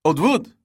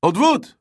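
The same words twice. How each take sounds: First: High, loud shout to shoo them away; yelling. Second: Even higher, louder shout, pushing harder; louder yelling. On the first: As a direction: shout it out, arms waving. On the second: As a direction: yell it again with more force. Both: A narrator's reading. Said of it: "she yelled".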